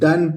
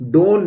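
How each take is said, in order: First: The vowel is a short 'uh' sound. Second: The vowel is a long 'oh' sound. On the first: The speaker calls it right. "हम इसको डन पढ़ेंगे" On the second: The speaker calls it wrong. "डोन नहीं पढ़ के"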